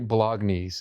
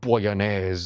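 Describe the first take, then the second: First: It is said with a plain English pronunciation. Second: It is said with an Italian-style pronunciation. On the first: The speaker is just saying it plainly. The speaker calls it right. "I'm gonna say bolognese" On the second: The speaker is putting on a showy flair. The speaker calls it wrong. "pronounce like some Italian shit"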